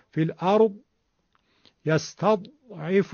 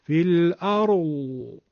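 First: الارض and یستضعف with a clipped heavy dal; muffled Egyptian zad; cut-off dal zad. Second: الارض slowly with a long moaning zad at the end; slow Hejazi zad. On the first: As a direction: stop the zad dead like a dal. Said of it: "اصلاً صدای زاد نیومد". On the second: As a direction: stretch the final zad like a dove's moan. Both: Shown as a demonstration.

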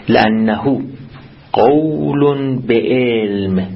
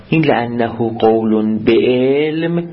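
First: Each word drawn out slowly; slow emphatic reading. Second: Said in the usual way. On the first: Shown as a demonstration. Teacher reading the Arabic text to students, very slowly. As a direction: spell out the phrase slowly for students.

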